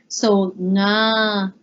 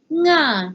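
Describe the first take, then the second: First: The syllable is said with a low pitch. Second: The syllable is said with a high pitch. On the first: "pronounced as a very low tone" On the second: "It's going to become a high tone"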